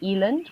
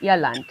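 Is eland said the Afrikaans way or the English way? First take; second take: English; Afrikaans. First: The word is said with English pronunciation. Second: The word is said with Afrikaans pronunciation. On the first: "a lot of English people will say Eland" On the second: "you said Ierland"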